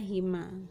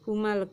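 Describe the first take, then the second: First: The vowel after the h is i. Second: The vowel after the h is u. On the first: The speaker calls it right. "tapi dibaca hima" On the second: The speaker calls it wrong. "huma tidak dibaca huma lagi"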